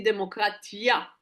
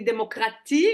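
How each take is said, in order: First: "démocratia" with an added final "ya" sound; Hebrew form. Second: "démocratie" ending on a "tie" sound; French form. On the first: Teacher showing the Hebrew ending, "démocratia" closing on "ya". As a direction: end "démocratia" on ia instead of i. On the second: Teacher contrasting word endings, "démocratie" with the French i ending. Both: Shown as a demonstration. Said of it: "nous on dit démocratia".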